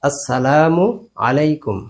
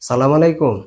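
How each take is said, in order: First: The greeting is said in full, every syllable included. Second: The greeting is clipped, dropping its opening syllable. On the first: The speaker calls it right. "বরং বলতে হবে আসসালামু আলাইকুম" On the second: The speaker calls it wrong. "এর কোনোটি বলা যাবে না"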